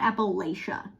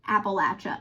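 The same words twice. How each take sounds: First: It uses a different, non-Southwest Virginia pronunciation. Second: It uses the Southwest Virginia pronunciation. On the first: The speaker calls it wrong. "not Appalachia" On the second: The speaker calls it right. "my Southwest Virginia way of pronouncing it is not the right way. It's Appalachia"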